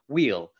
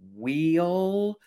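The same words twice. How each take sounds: First: The vowel is short and not drawn out. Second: The vowel is long and drawn out. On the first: The speaker calls it right. "So I'm trying to wheel" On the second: The speaker calls it wrong. "I used to always say, wheel, and you sort of really draw that out"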